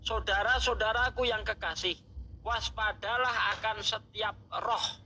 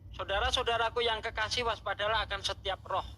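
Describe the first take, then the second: First: It is read slowly and deliberately. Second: It is read at a normal, quicker pace.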